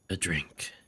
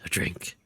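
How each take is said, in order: First: It is said in a normal voice. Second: It is said in a gruff Batman voice.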